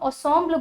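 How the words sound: The word is said with a French pronunciation. "इसको हम ensemble बोलते हैं इन फ्रेंच"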